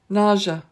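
The word is said with an American pronunciation. "That one's more American"

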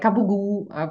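Shortened form with dropped final vowel and voiced consonants. This is how Italian Americans say the word. "in the Italian American community, it's like capugu"

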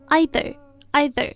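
It is said with a British pronunciation. "英式会发either"

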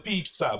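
It is said with an Italian accent. "I'd put like an Italian twinge on it"

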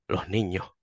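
The s is softened, Andalusian style.

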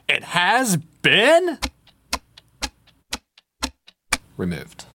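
It is said slowly with building suspense.

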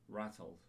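It is said in a British accent. The speaker calls it right. "that's when you should speak British English"

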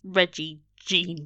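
The name is said with an English accent. The speaker calls it wrong. "If you read it with an English accent"

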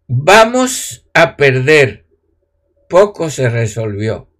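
The pause comes after the word 'perder'.

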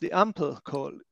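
Ampel is pronounced with an English accent. The speaker calls it wrong. "I have no idea why I just said this with an English accent"

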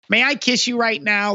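It sounds obnoxious and annoying.

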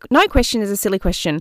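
It is said in a put-on imitation voice.

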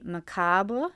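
The word is said the French way. "Or in French, it would be"

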